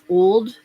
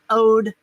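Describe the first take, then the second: First: The L sound is clearly pronounced. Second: The L sound is dropped entirely. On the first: "when it's a word that like old or whole" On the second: "there are no L's in Mississippi"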